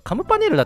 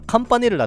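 First: The second sound is a full 'mu' syllable. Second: The second sound is a nasal 'n'. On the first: "カムパじゃなくてさ" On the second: "カンパネルラっていうの多いよな"

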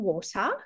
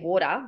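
First: The T is crisp and carefully pronounced. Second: The T is soft and casual. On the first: This is careful speech for a young child. "you're talking very clearly to her daughter" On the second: This is the normal everyday way of speaking. "normally she would say water"

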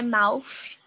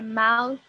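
First: The final sound is an f sound. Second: The final sound is a voiceless th sound. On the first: The speaker calls it wrong. "Não é um F, porque não é mouth" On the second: The speaker calls it right. "Essa é a pronúncia correta"

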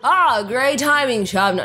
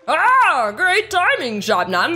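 First: It is read in the speaker's ordinary voice. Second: It is read in a put-on character voice. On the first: The speaker calls it wrong. "No, he needs a better voice" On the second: The speaker calls it right. "he needs a better voice"

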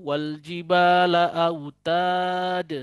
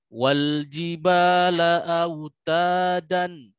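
First: The last word stops abruptly on the consonant. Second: The last word ends with an n sound. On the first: "atau wal jibala autad. Salah" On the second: "bukan wal jibala autadan"

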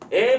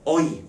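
First: It is said as one steady vowel. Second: It glides from one vowel into another. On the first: This is the modern pronunciation. "현대국어 기준으로는 에라고 하면서 단모음이지만" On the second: This is the older pronunciation. "중세국어는 얘를 이중모음으로 발음했다"

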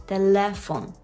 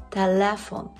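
No difference in how they are said.

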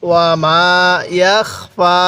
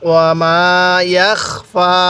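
No difference in how they are said.

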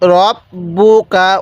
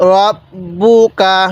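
First: The first vowel sounds like a rounded 'o'. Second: The first vowel sounds like a rounded 'o'.

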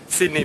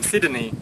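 First: The d and n are joined without a vowel. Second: A vowel is inserted between the d and n. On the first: "I was actually pronouncing it wrongly" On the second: "they tend to insert a vowel in between them"

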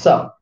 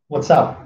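First: It is clipped down to one syllable. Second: The first two words are contracted together.

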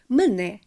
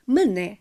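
First: The stress is on the second syllable. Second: The stress is on the second syllable.

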